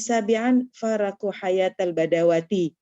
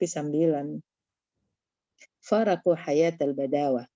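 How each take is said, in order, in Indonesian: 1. Kata terakhir berakhir dengan vokal penuh '-ti'. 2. Kata terakhir berakhir mati dengan '-ah'. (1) "pasti dibawatinya lagi" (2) "kan enak dengarnya"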